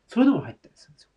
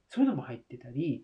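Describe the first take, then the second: First: そういうのも入ったりするんですよ rushed out in a fast breathy whisper; quick whisper. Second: Said in the usual way. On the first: Real, not acted. To viewers, an aside about fillings, fast whisper.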